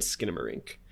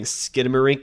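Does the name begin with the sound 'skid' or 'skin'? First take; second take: skin; skid. First: The name begins with the sound 'skin'. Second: The name begins with the sound 'skid'. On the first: The speaker calls it right. "It's skin like your human skin. Skidamarink is how it's pronounced" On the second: The speaker calls it wrong. "I pronounced it incorrectly. I was saying Skidamarink"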